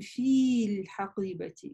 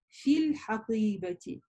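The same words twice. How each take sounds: First: The first vowel is stretched out long. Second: The first vowel is cut short. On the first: The speaker calls it wrong. "мы не говорим" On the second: The speaker calls it right. "мы говорим ... мы только «фа» с «касрой» и переходим на «лям»"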